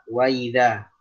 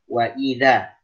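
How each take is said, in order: First: The glottal stop is softened into a glide. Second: The glottal stop is pronounced fully and clearly. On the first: The speaker calls it wrong. "itu masuknya ke tashil" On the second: The speaker calls it right. "mesti jelas tahqiq semua"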